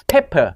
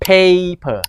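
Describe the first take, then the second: First: PEPPER with a short, quick "eh"; short vowel pepper. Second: PAPER with the "ay" dragged out; long vowel paper. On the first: Teacher explaining hand signal, short-vowel "pepper". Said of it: "แสดงว่าเสียงสั้นเป็น". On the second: Teacher explaining hand signal, drawn-out "paper". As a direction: stretch the first vowel of paper slowly. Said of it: "แสดงว่าให้ลากเสียงยาว". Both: Shown as a demonstration.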